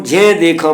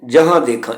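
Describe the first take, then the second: First: ਜੇ said as one nasal syllable with an e vowel; contracted misreading. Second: ਜਹਾਂ with j, h and nasal long aa; written j-h sound. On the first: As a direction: shrink jahaan to a single jhen in ਜੇ ਦੇਖਾਂ. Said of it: "ਪੜ੍ਹਨਾ ਅਸ਼ੁੱਧ ਹੈ". (ਜਹਾਂ ਦੀ ਥਾਂ ਇੱਕ ਉਚਾਰਖੰਡ 'ਜੇ' ਬੋਲੋ) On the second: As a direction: say ਜਹਾਂ as jahaan, not jen. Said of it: "ਇੱਥੇ ਜੱਜਾ ਹਾ ਲਿਖਿਆ ਹੈ". (ਜਹਾਂ ਵਿੱਚ ਜੱਜਾ, ਹਾਹਾ ਤੇ ਕੰਨਾ ਬੋਲੋ) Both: Shown as a demonstration.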